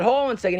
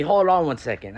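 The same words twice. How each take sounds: First: Much higher disbelieving repeat; mock outraged echo; incredulous echo. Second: Said in the usual way. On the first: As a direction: throw his words back in disbelief. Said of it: "I said". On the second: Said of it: "The man had the audacity to tell me".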